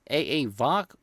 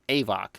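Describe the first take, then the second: First: The letter A is said twice before Vox. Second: The letter A is said once before Vox. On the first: "is it pronounced A A Vox" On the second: "or just A VOC?"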